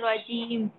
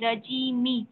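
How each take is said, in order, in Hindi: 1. शब्द 'म' की ध्वनि पर खत्म होता है। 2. शब्द छोटी 'इ' स्वर पर खत्म होता है। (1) "मीम के नीचे जो जेर है वो खत्म हो जाएगा" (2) "मीम जेर मी"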